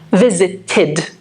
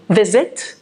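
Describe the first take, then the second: First: Visited with an extra syllable id at the end. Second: Visit said plainly before adding the ending; base form. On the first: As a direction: stretch visited into vi-si-ted. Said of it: "So that takes the sound id". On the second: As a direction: say visit, then get ready for the ending. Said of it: "We need to add one syllable". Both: Shown as a demonstration.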